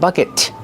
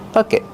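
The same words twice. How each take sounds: First: The final T is released with a puff of air. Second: The final T is stopped without releasing air. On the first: The speaker calls it wrong. "not bucket" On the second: The speaker calls it right. "Make a stop T"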